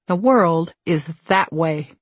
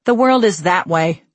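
First: Slow, measured restatement; slow reflective echo. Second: Lightly voiced gag button; quick comic exit line. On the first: Author applies Piggy's line to her own turn, slow and reflective. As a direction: let the line settle slowly as a reflection. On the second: Piggy corrects her exit after a one eighty, brisk comic line. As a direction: toss it back while hurrying off. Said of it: "she says, scurrying off". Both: A narrator's reading.

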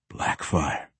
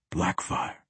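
First: Word let out on a long breath; low, airy sigh of a word; deep exhale. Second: Breath-only whisper, very soft; hushed whispered summons. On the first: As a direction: breathe the name out, low and soft. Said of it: "said with a deep exhale". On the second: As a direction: whisper it under your breath. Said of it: "he whispered". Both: A narrator's reading.

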